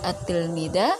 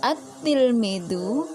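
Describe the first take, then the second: First: The word ends with an a vowel. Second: The word ends with an u vowel. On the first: The speaker calls it wrong. "Tidak boleh dibaca fathah" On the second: The speaker calls it right. "harus dibaca dhamma"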